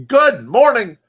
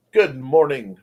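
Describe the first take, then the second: First: Loud greeting. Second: Said in the usual way. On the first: Real, not acted.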